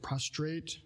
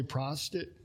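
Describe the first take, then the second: First: "prostrate" fixed, said pros-trate clearly; corrected word. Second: "prostrate" slipped as "prostitute"; "prostrate" said wrong, like prostitute; mispronounced. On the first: Preacher correcting himself on the word, careful. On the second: Preacher stumbling on a word, saying it wrong. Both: Real, not acted. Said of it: "Get that word right?".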